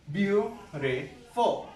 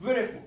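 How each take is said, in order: First: Beautiful stretched out slowly as beau-ti-ful; slow syllable-by-syllable. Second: Said in the usual way. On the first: Shown as a demonstration. Teacher slowly splits beautiful into syllables. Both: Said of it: "three syllables".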